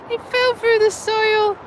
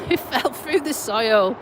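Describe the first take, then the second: First: Slow, high, drawn-out It fell through the soil; comic mock repeat. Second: Said in the usual way. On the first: Shown as a demonstration. Retelling dad's fall for the viewers, slow high mock repeat. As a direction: savour the absurd line, stretching it.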